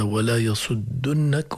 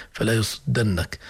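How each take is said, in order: First: Slow "يصدنك" as yasuddunnak, u after dd; damma on the dal. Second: "يصدنك" as yasuddannak, a after dd; fatha on the dal. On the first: Teacher shows the plural form, slow "يصدنك" with u. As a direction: draw out "يصدنك" with u before nn. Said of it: "هنا في واو الجماعة". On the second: Teacher contrasts two verses, "يصدنك" with an a. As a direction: say "يصدنك" with a before the held nn. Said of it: "لكن هنا". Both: Shown as a demonstration.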